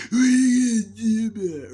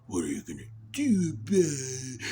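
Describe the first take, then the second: First: High, loud squeaky challenge; shouted mantis taunt. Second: Praying mantis taunt. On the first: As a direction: yell it like a tiny bug picking a fight. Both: Pretend. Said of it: "another praying mantis noise".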